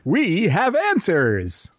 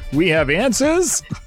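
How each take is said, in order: First: The voice sounds firm and confident. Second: The voice sounds hesitant and unsure. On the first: The speaker calls it right. "That's better" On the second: The speaker calls it wrong. "We don't sound so sure"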